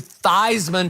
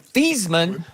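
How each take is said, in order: First: The name rhymes with Heisman. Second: The name does not rhyme with Heisman. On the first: This was adopted to promote a Heisman campaign. "to rhyme with Heisman" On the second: This was the original family pronunciation. "changed the pronunciation of his last name from"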